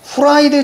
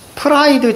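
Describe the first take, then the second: First: The word starts with an h sound. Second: The word starts with a p sound. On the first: It sounds crispy and freshly fried. The speaker calls it wrong. "아니고" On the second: It sounds like cold chicken. The speaker calls it right. "프라이드 치킨입니다"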